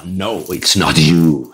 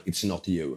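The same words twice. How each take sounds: First: Low, drawn-out mock verdict; slow, deep-voiced rejection, playing the speaker; hammed-up low, slow announcement; imitating big-stage speaker. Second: Low, much softer mock verdict; understated low-voiced dismissal; imitating stage speaker's rejection. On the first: Retold speaker rejects him on stage. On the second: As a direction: drop low and quiet, playing the speaker. Retold speaker rejects another person.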